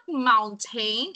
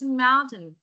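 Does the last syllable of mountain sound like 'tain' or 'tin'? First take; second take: tain; tin. First: The last syllable sounds like 'tain'. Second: The last syllable sounds like 'tin'. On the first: The speaker calls it wrong. "It's not mountain" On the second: The speaker calls it right. "Hindi siya tain. Tin"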